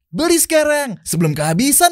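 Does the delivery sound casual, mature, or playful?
playful. It is said in a bright, playful, childlike tone. It advertises a product for children. "Lo ngiklanin si botol minum anak-anak ini"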